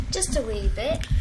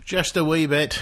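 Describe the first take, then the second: First: A hint of a Scottish lilt on wee bit; light Scottish accent. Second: A hint of Scottish, echoing her words; light Scottish accent. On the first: A hint of a Scottish accent, teasing her cohost. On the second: A hint of a Scottish accent, echoing the cohost's line. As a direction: echo it back in a light Scottish lilt. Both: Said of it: "Oh, I like your accent".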